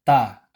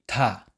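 First: The t is tense with no puff of air. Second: The t is released with a puff of air. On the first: The speaker calls it right. "Ang pagbigkas nito ay ta, as in tatay" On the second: The speaker calls it wrong. "Hindi ta"

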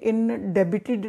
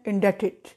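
First: A 'b' sound is heard in the middle. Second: No 'b' sound is heard in the middle. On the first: The speaker calls it wrong. "नहीं बोलना" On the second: The speaker calls it right. "बी चुप है"

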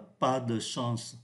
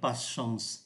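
First: The vowel in 'de' is fully pronounced. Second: The vowel in 'de' is dropped, said fast. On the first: The speaker calls it wrong. "Người ta không phát âm mạnh là pas de chance" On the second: The speaker calls it right. "mà đọc nhanh là pas chance"

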